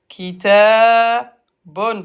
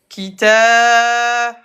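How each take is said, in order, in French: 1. Le mot finit par un son nasal 'un'. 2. Le mot finit par une consonne.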